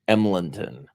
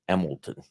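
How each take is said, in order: First: It is said as spelled, with the middle n. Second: It is said as Emilton, without the middle n. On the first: It follows the written spelling. "Ours is spelled E M L E N T O N" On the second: It is how the locals say it. "Everybody pronounces it Emilton"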